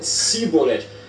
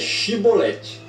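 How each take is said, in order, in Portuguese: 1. A palavra começa com o som de 's'. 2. A palavra começa com o som de 'sh'. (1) "não o podia pronunciar bem" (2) "ela tem som de S H e não de S"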